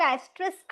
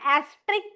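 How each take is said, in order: First: An 's' sound comes before final 'k'. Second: There is no 's' sound before final 'k'. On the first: "कुछ कुछ लोग एस्ट्रिस्क बोलते हैं" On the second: "एस silent होता है, कुछ कुछ लोग एस्ट्रिक बोलते हैं"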